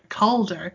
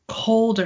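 First: It is said with American-style vowels. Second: It is said without American-style vowels. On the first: The speaker calls it wrong. "saying it like American style and saying Calder" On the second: The speaker calls it right. "and it's Calder"

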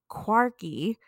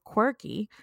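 First: The first vowel sounds like in quark. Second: The first vowel sounds like in quirk. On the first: The word is linked to quarks, the universe's building blocks. "I actually meant to say quirky" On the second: The word simply means odd or unusual. "instead of quirky"

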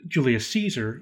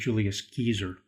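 First: Caesar begins with a soft S sound. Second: Caesar begins with a hard K sound. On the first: This is the later, familiar pronunciation. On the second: This is the original classical pronunciation.

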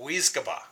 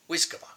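First: The word is said at a normal pace. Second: The word is said quickly.

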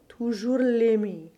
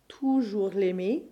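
First: Extra stress falls on the first syllable of l'aimer. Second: Extra stress falls on the first syllable of toujours. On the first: The word l'aimer is emphasized. "give slightly more stress to the first syllable of either of these words" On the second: The word toujours is emphasized. "give slightly more stress to the first syllable of either of these words"

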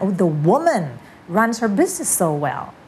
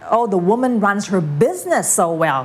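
First: The word woman carries the main stress. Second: The word business carries the main stress. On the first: This particular woman is very capable. "คุณอาจจะไปเน้นที่ the woman ก็ได้บอกผู้หญิงคนนี้เก่งนะ" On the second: The business is run well, unlike other things. "สมมุติคุณอยากจะเน้นที่business"

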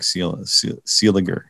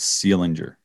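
First: The name has no N sound before the G. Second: The name has an N sound before the G. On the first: The speaker calls it right. "I think it looks more like Seeliger" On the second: The speaker calls it wrong. "I think I was putting an N where there shouldn't be an N"

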